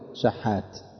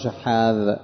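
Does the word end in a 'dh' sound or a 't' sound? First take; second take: t; dh. First: The word ends in a plain 't' sound. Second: The word ends in a voiced 'dh' sound. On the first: This is the form common people use. The speaker calls it wrong. "شحات بالتاء" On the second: This is the form used in proper Arabic. The speaker calls it right. "يقال له شحاذ بالذال"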